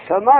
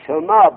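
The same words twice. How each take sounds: First: سما said with the first vowel as u; سما with the s followed by u, like "sumā". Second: سما drawn out slowly, the first vowel u; سما said as "sumā", the s followed by u. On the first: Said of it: "میگه سما را به ضم سین بخون". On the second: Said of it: "و سما به ضم سین". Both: Shown as a demonstration.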